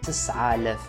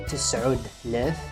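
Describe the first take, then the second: First: 'Tis' runs straight into 'alaf' with no 't'. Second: A 't' sound comes between 'tis' and 'alaf'. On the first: The speaker calls it right. "We should say تسعالاف" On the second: The speaker calls it wrong. "we cannot say تسعود لاف. It's wrong"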